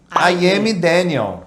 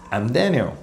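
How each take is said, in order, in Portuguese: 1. Se fala com duas palavras completas, I am. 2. Se fala de leve, como uma palavra só, contraída. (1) "Como todo bom brasileiro" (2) "você vai escutar os nativos pronunciarem assim"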